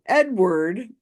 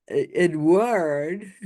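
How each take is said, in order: First: Said in the usual way. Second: Slow French-style "Edward"; put-on French accent. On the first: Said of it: "however she wants to say it". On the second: Shown as a demonstration. YouTuber mimics psychic's name, mock French accent. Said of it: "some sort of accent".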